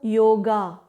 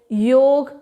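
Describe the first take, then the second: First: The word ends with an added final vowel sound. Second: The word ends on a consonant, without a final vowel. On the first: The speaker calls it wrong. "not yoga" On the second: The speaker calls it right. "The pronunciation of the yoga is yog"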